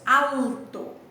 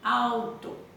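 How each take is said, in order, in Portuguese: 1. O L é pronunciado como consoante clara. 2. O L soa parecido com a vogal U. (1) "nós não falamos alto" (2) "nós emitimos um som próximo da letra U"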